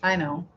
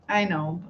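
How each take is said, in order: Both takes have the same delivery.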